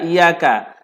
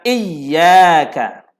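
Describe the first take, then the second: First: The y sound is short and single. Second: The y sound is held and doubled. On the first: The speaker calls it wrong. "sabdu ditinggalkan, sebutan menjadi iyyaka" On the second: The speaker calls it right. "Sebutan yang betul adalah iyyaka"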